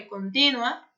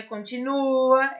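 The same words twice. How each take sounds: First: Contínua with the stress on the í, con-TÍ-nua, as the correct form; right stress. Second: Continua with the stress on the u, con-ti-NU-a, as the wrong form; continua, conti-NU-a, the form to avoid. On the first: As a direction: set contínua straight, stressed on the í. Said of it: "não é continua". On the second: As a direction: say continua stressed on the u to show the mistake. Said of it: "é contínua". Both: Shown as a demonstration.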